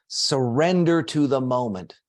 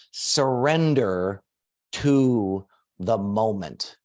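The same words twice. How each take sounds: First: Said in the usual way. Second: "surrender to the moment" drawn out slowly, word by word; slow dictation. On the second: Shown as a demonstration. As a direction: dictate it slowly so everyone can write. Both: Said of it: "everybody write this down".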